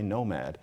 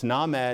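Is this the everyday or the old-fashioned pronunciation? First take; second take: everyday; old-fashioned. First: It uses the everyday modern pronunciation. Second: It uses the old-fashioned recommended pronunciation. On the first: This was considered the vulgar way. "the way we do" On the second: This was considered the proper, classy way. "is how you're supposed to say nomad"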